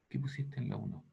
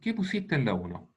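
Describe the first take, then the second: First: The question is spoken at a soft volume. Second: The question is spoken louder still. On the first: The classmate in front does not hear it. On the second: The classmate finally hears it.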